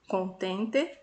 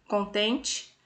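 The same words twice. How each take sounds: First: The final vowel sounds like 'e'. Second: The final vowel sounds like 'i'. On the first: This matches how it is written. "a maneira correta de escrita é" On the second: This is how it is usually said in speech. "nós acabamos falando desta maneira"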